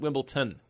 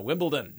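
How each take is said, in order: First: The middle consonant is a T sound. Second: The middle consonant is a D sound. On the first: The speaker calls it wrong. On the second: The speaker calls it right. "It's a D"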